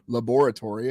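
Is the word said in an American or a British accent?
British. It is said in a British accent.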